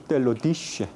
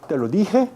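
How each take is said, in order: First: The j is a sh sound. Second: The j is a harsh throaty sound. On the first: This is how it was said in the Middle Ages. The speaker calls it right. "Esta pronunciación she" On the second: This is how it is said today. The speaker calls it wrong. "No decía"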